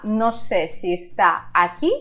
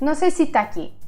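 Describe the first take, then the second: First: Each word is pronounced separately and fully. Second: The words are blended into one chunk.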